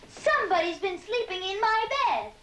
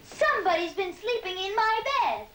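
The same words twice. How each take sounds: First: It is said in a tiny, small voice. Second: It is said in a tiny, small voice.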